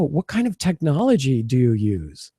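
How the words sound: It sounds excited, with an upward tune. The speaker is genuinely interested in the person. The speaker calls it right. "I'm kind of going upward with that. I'm showing some excitement in my voice"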